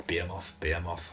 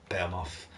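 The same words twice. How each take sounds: First: "Behemoth" tried in three syllables, like BEE-uh-moff; alternative pronunciations. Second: "Behemoth" squashed to two syllables, like BEM-off; alternative pronunciation. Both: Shown as a demonstration. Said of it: "however you wanna pronounce it".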